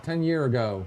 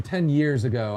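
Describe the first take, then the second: First: "ten year ago" with no s on year; dropped plural. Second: Said in the usual way. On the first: Shown as a demonstration. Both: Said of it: "instead of making it plural".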